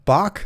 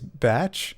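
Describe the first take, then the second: First: It is said like the composer's name, Bach. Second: It is said like the word batch. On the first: The speaker calls it wrong. "pronounced it Bach because of classical music" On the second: The speaker calls it right. "Maybe it's batch"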